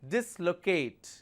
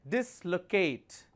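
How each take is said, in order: Both takes have the same delivery.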